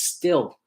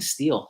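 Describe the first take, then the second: First: The vowel is short, rhyming with 'fill'. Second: The vowel is long, rhyming with 'feel'. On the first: The speaker calls it right. "it's actually pronounced Still" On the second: The speaker calls it wrong. "I keep saying Steel"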